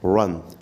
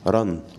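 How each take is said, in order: First: The r is said with slightly rounded lips. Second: The r is a tapped, Arabic-style r. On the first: The speaker calls it right. "قول عليها رن" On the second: The speaker calls it wrong. "ما تقولش رن"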